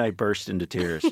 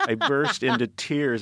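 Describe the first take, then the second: First: Said in the usual way. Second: "I burst into tears" drawn out slowly, higher; emphatic repeat. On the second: Real, not acted. Grown man confesses to co-host, slow emphatic "I burst into tears".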